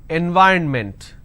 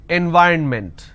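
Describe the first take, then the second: No difference in how they are said.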